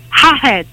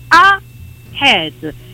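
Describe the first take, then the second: First: The word starts with an extra h sound. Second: The word starts with a bare vowel, no h. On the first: The speaker calls it wrong. "me la pronunciano regolarmente ahead... Aggiungono l'H all'inizio, che non serve" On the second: The speaker calls it right. "staccate la A dal resto della parola"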